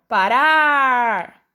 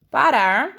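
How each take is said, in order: First: Slow, stretched "parar" with the final syllable "rar" pushed hard; stressed syllable demo. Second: Said in the usual way. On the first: Shown as a demonstration. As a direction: drag out "parar", leaning on "rar". (ênfase lenta na última sílaba de "parar") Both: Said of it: "é a sílaba que eu falei mais forte".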